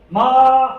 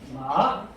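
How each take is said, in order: First: The pitch stays high and level throughout. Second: The pitch dips down and then rises. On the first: "크게 높은 높은 음에서 끝까지 높게 끝나는 게 일성 마입니다" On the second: "처음에 시작했다가 내렸다가 올리는 겁니다"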